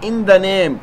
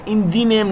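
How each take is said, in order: First: 'The' is said with a short 'uh' vowel. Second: 'The' is said with a long 'ee' vowel. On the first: The speaker calls it right. "ان دا نیم اب یہاں پر دا ہم بولیں گے" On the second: The speaker calls it wrong. "ان دی نیم نہیں بولیں گے"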